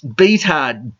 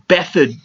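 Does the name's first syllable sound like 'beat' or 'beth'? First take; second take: beat; beth. First: The first syllable sounds like 'beat'. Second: The first syllable sounds like 'beth'. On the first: This is a jokey literal reading of the name. "to me, it's Beathard" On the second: This is how the player's own side says it. "They pronounce it Bethard"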